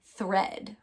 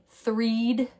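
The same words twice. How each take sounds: First: "thread" with short eh, rhyming with bed. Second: "threed" with a long ee, rhyming with need; long E trial. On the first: Teacher correcting to the real word, short E. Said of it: "use the short E sound". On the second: Teacher testing the wrong vowel, long E mispronunciation. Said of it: "Maybe I should try the E E sound". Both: Shown as a demonstration.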